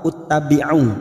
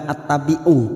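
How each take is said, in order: First: The word begins with a u vowel. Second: The word begins with an a vowel. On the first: "atau uttabi'u?" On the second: "Kenapa bukan attabi'u"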